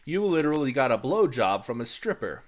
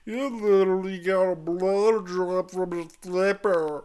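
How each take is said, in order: First: It sounds clear, like a sober man. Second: It sounds slurred, like a drunk man.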